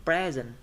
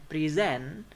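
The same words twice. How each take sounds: First: PRE-sent, first syllable punched; stress on first syllable of present. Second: Pre-SENT, second syllable raised and drawn out; stress on second syllable of present. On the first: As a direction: say present as a noun, stressed at the front. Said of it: "stress will be on the first syllable". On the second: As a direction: say present as a verb, stressed at the end. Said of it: "stress will be on the second syllable". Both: Shown as a demonstration.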